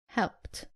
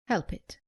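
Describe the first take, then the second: First: The ending adds no extra syllable. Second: The ending is pronounced as an extra 'id' syllable. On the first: The speaker calls it right. "It is" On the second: The speaker calls it wrong. "Common mistake"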